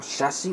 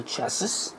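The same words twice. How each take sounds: First: "chassis" with a silent final s; alternative pronunciation. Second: "chassis" with a sounded final s; alternative pronunciation. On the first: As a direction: say "chassis" as SHASS-ee. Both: Shown as a demonstration. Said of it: "whatever you want to call it".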